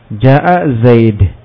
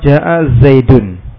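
First: The last word ends on a bare consonant. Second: The last word ends with a vowel and n. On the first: "dibuang harokat dan apa tanwinnya, dengan disukun" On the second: "Dhammah yang pertama ada harokat tanwin"

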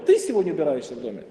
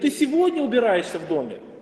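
First: The stress falls on the word ты. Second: The stress falls on the word сегодня. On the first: The question is about who does it. "Кто? Ты или ты?" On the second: The question is about when it happens. "Теперь мы переносим это ударение на второе слово"

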